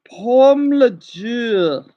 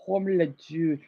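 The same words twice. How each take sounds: First: Pomme le jus said very slowly and louder; confident teacher's repeat; slow French demo. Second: Quiet try. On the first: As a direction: say Pomme le jus clearly, word by word. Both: Shown as a demonstration. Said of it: "how can I say juice".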